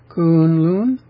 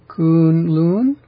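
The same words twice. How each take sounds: Both takes have the same delivery.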